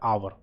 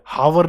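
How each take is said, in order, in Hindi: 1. यह शब्द स्वर की आवाज़ से शुरू होता है। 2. यह शब्द h की आवाज़ से शुरू होता है। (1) "आवर बोला जाता है" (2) "हावर नहीं है"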